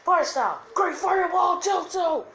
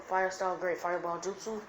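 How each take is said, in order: First: High, loud anime attack shout; battle cry. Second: Said in the usual way. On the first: Acted. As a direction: yell the jutsu name with full force. Same move now acted as attack. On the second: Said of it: "I'm just gonna give him".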